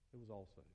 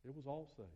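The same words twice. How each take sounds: First: Much softer, lower echo; hushed repetition; quiet. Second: Said in the usual way. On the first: Acted. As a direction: let it fall to a hush. Repeat dropped much quieter.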